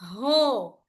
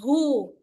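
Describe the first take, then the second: First: The vowel sounds like an open o. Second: The vowel sounds like a rounded oo. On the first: The speaker calls it wrong. "No, don't say ho" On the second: The speaker calls it right. "We must give oo sound"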